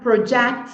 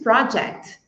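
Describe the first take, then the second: First: The stress is on the second syllable. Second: The stress is on the first syllable. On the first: It is used as a verb. "Quando ela for um verbo, a sílaba tônica é a segunda" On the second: It is used as a noun. "quando ela for um substantivo, a sílaba tônica é a primeira"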